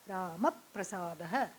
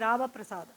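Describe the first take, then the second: First: The p sound is doubled and held. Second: The p sound is single, not held. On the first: The speaker calls it right. "there is that doubling when we chant" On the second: The speaker calls it wrong. "We don't say Rama Prasada"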